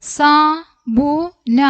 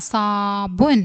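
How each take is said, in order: First: Very slow, higher, separated sounds; letter by letter. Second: Said in the usual way. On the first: Shown as a demonstration. Teacher spelling out a word for learners, letter by letter. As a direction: give each letter its own beat.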